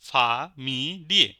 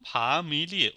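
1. শব্দটি আলাদা আলাদা, মাঝে ফাঁক রেখে সিলেবলে ভাগ করে বলা হয়। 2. শব্দটি মসৃণভাবে একসাথে, একটি পুরো হিসেবে বলা হয়।

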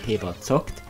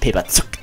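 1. Das zweite Wort hat einen 'o'-Laut. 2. Das zweite Wort hat einen 'u'-Laut. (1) "Sondern Paper zockt" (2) "nicht Paper Zuckt"

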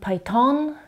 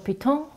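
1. Es wird amerikanisch ausgesprochen. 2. Es wird französisch ausgesprochen. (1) "Amerikaner sagen Python" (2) "manche Franzosen sagen Le Python"

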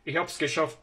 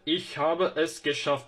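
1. Habe es tek heceye kısaltılır. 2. Habe ve es ayrı hecelerle söylenir. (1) "ich hab's geschafft diyebilirsiniz" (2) "Aynı şekilde ich habe es geschafft"

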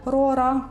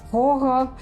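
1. Звук «р» вимовляється по-українськи. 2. Звук «р» вимовляється не по-українськи. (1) "на український манер" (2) "чи"

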